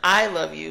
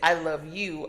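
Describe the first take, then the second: First: The stress is on "I". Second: The stress is on "you".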